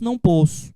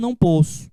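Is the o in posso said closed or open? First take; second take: closed; closed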